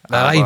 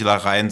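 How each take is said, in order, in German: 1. Der Name wird auf spanische Art ausgesprochen. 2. Der Name wird auf deutsche Art ausgesprochen. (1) "meine Freundin hat versucht, es mir zu erklären, es ist ja Larraín" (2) "Aber wir können, glaube ich, Larraín sagen"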